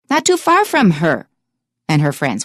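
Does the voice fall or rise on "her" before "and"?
falls. The voice falls on "her" as if finished.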